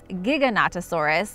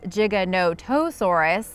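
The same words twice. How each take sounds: First: The opening sounds like the word gigabyte. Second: The middle sounds like the words no toe. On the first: "like gigabyte" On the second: "like it has no toe"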